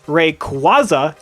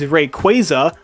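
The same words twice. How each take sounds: First: The middle of the name does not sound like 'quasar'. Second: The middle of the name sounds like 'quasar'. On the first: "I refuse to pronounce it like that" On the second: "the correct pronunciation is Rayquaza, like a quasar"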